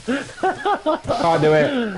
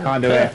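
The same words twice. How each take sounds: First: High, very slow, stretched-out refusal; high stretched-out can't do it; drawn-out refusal. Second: Said in the usual way. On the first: Acted. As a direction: drag it out in disbelief. Refusing the Hitler choice.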